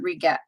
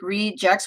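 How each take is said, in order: First: The g is said hard, like in go. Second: The g is said softly, like a j.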